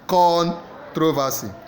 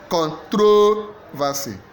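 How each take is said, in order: First: The stress is on the first syllable. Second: The stress is on the second syllable. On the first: "A first syllable" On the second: "Second syllable"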